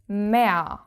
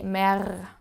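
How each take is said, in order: First: The final R becomes a vowel like A. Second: The final R is sounded as a consonant. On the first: The speaker calls it right. "sounds like you have added an A" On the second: The speaker calls it wrong. "You don't say mer"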